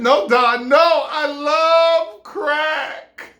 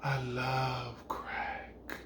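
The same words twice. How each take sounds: First: High, loud, drawn-out declaration; emphatic shout. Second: Very slow, low and soft; hushed, savouring each word; blissed-out murmur. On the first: Woman insists to him she loves crack, shouting. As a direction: shout it, stretching the last words. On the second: Woman after smoking confides in him, slow and blissful. She stops crying, savours the smoke. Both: Acted.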